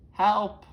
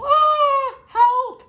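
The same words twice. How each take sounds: First: Loud, high yell from a closet; trapped grandma yelling out; call for help. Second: Very high, piercing scream for help; terrified shriek at the top of the voice; full scream. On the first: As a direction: shout it once, short of a full scream. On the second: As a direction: scream as loud as possible. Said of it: "screams as loud as possible". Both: Acted.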